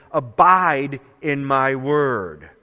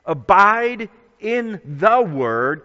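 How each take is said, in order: First: Said in the usual way. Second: "the" drawn out and stressed; slow down and lean hard on "the". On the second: Shown as a demonstration. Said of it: "'cause there's a definite article there".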